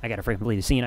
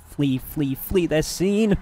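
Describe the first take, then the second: First: Said in the usual way. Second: Slow, hammed-up theatrical delivery; mock dramatic drawl. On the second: Streamer joking about fleeing the crime scene, slow mock drama. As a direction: stretch it out like a movie villain escaping.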